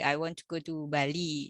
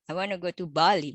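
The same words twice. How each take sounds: First: Bali is said flatly, with no extra stress. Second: Bali is said with clear, strong stress. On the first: "biasa banget" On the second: "Jadi Balinya itu ada tekanan"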